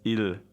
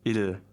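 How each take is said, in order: The two takes are said the same way.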